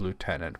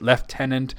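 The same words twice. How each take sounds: First: The word is said in a non-British way. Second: The word is said the British way.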